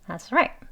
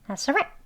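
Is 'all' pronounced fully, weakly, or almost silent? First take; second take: almost silent; almost silent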